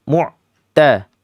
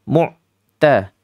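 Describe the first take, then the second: The two takes are said the same way.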